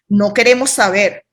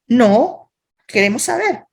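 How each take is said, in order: First: It runs on without a pause after 'no'. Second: There is a short pause after 'no'. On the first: We do not want to be told. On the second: We do want to be told. "Al contrario a lo que tú piensas, sí, dinos la información"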